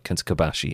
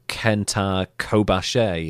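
First: All syllables of the name are equally flat. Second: One syllable of the name is stressed. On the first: The speaker calls it right. "it's like Kenta Kobashi. It's just flat" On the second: The speaker calls it wrong. "it's not"

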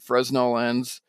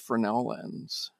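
First: Fresnel is pronounced the anglicized way. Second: Fresnel is pronounced the French way. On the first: The speaker calls it wrong. "Somebody called me out on it because I called it Fresnel lens" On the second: The speaker calls it right. "it's Fresnel lens. ... the proper French pronunciation"

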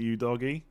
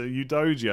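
First: The middle consonant is a hard g sound. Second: The middle consonant is a j sound. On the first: The speaker calls it wrong. "I've been saying Udoji's name wrong" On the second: The speaker calls it right. "So Udoji, I think it is"

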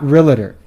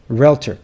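First: The word is said with three syllables. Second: The word is said with two syllables. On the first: The speaker calls it wrong. "not realtor. ... you've been pronouncing it wrong this whole time. Do you see an A between the L and the T?" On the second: The speaker calls it right.

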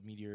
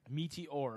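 First: It is said as the ordinary word meteor. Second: It is said as 'meat' plus 'oar'. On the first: It means the rock falling from the sky. "like the meteor in the sky" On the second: It means an oar made out of meat. "like an oar for rowing a boat, but made out of meat"

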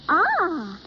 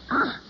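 First: It sounds pleased. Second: It sounds disgusted.

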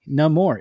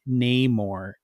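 First: The name is said with a soft A vowel. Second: The name is said with a hard A vowel.

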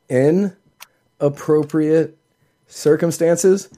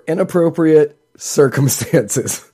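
First: 'In' is said as a separate word. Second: 'In' is joined to 'appropriate' as one word. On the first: He may show it at a suitable time. "saying he can show you inappropriate circumstances" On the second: Showing it here would be unsuitable. "no, that's inappropriate at this during"

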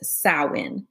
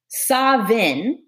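First: It is said with the Irish Gaelic pronunciation. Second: It is said with the Scottish Gaelic pronunciation. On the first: "Irish Gaelic says Samhain" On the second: "Samhain is the Scottish, the ancient Scottish Gaelic version"

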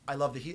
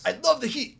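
First: It is said casually, with low energy. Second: It is said forcefully, with high energy.

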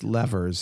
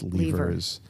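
First: It is said the American way. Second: It is said the British way. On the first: "if you're in America" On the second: "if you're in England"

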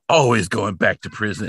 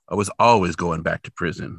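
First: It sounds angry and upset. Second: It sounds resigned and accepting.

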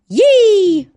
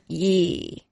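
First: It is said in an excited tone. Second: It is said in an unexcited tone.

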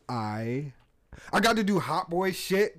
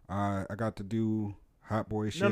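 First: It is said in a lively, excited way. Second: It is said in a flatter, less excited way. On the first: The speaker calls it right. "There you go" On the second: The speaker calls it wrong.

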